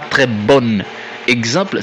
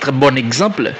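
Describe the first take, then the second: First: Bon keeps its nasal vowel, with no n link. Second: Bon is linked to exemple, sounding like bonne. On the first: The speaker calls it wrong. "c'est pas très bon exemple" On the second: The speaker calls it right. "c'est très bon exemple. Ça sonne féminin"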